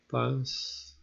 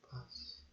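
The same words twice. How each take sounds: First: It is said aloud at normal volume. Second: It is said very quietly, almost silently.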